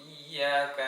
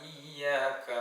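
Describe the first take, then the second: Both takes have the same delivery.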